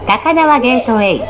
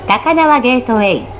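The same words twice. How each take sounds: The two takes are said the same way.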